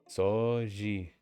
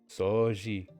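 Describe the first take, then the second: Both takes have the same delivery.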